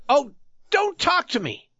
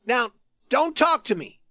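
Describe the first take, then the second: First: Much higher, sharp impatient outburst; impatient cry. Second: High, pleading warning; despairing threat. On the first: Youth to the tattered man, impatient high cry. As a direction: snap it out, fed up. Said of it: "gave a cry of impatience". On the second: Youth warns the tattered man again, despairing threat. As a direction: threaten him, near despair. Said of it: "with a despairing threat". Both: A narrator's reading.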